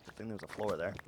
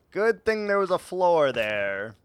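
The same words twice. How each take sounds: First: Muttered quiet "floor"; quiet aside. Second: Louder, rising "Good"; louder punchline. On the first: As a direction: mutter it to yourself. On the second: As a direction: say it out for the audience. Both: Shown as a demonstration. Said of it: "repeated differently".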